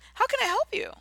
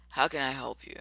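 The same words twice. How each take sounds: First: It sounds warm, bright and welcoming. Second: It sounds bored and annoyed, unwelcoming. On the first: The customer is welcome. The speaker calls it right. "See the tone?" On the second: The customer is an unwelcome interruption. The speaker calls it wrong. "like I'm bothering you"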